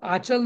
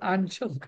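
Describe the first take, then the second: First: The first vowel is plain, without nasal sound. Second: The first vowel is nasalized before the ch. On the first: The speaker calls it wrong. "आचल नाही" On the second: The speaker calls it right. "आंचल असतं"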